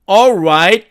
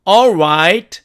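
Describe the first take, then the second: Both takes have the same delivery.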